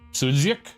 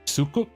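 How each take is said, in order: First: The middle consonant is a DZ sound. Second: The middle consonant is a K sound. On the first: "Pronounced like D Z" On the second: "If it was pronounced like a K"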